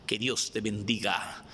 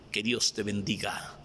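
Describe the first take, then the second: No difference in how they are said.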